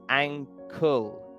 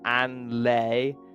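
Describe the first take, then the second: First: The word is said with a K sound. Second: The word is said without a K sound. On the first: The speaker calls it right. "we do pronounce the K" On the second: The speaker calls it wrong. "it's not anle"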